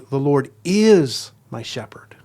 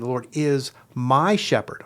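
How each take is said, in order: First: The stress is on the word is. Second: The stress is on the word my.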